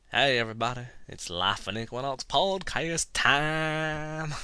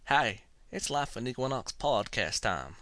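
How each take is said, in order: First: Slow Southern show-opener, last word stretched out; horrible southern accent. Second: Put-on Southern accent, quoted at ordinary pace; horrible southern accent. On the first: Acted. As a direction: announce it in a hammy, drawn-out Southern accent. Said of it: "so here's my introduction". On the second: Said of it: "my horrible southern accent".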